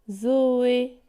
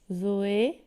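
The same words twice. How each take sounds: First: "Zoé" drawn out in two even syllables. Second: Said in the usual way. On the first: Shown as a demonstration. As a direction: split "Zoé" into two held beats, Zo-é. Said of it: "il y a deux syllabes". (« Zoé » détaché en deux syllabes) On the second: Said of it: "Combien de syllabes".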